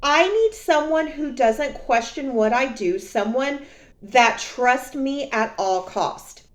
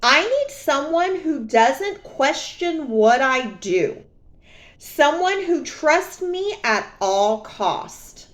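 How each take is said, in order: First: Repeated quote. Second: Slow, a little higher, lightly voiced ex; mock ex-boyfriend. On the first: Retold or imitated. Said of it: "repeat of his words". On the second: Quoting her cheating ex, slow and lightly mocking. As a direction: drawl out his words mockingly. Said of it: "This is what he says, verbatim".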